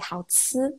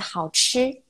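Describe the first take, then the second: First: It is said with a southern Chinese accent. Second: It is said with a northern Chinese accent. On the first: "if you go to the south, south or even Singapore, like people tend to say 好吃" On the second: "in the northern part we say 好吃"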